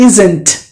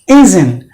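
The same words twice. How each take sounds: First: The T sound is clearly pronounced in the word. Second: The T sound is dropped from the word. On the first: The speaker calls it wrong. "It's not like" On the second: The speaker calls it right. "the T is silent"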